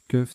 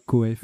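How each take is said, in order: First: It is said as one syllable, like 'keuf'. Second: It is said as two syllables, like 'co-ef'. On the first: The speaker calls it right. "ça se prononce keuf" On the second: The speaker calls it wrong. "c'est pas coef"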